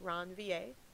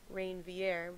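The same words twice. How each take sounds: First: The name is said with a French pronunciation. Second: The name is said with an English pronunciation. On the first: This follows the discoverer's own language. The speaker calls it right. "this guy that discovered them was French, so it's actually pronounced Ranvier" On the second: This is the common way people say it. The speaker calls it wrong. "many people may pronounce this Ranvier"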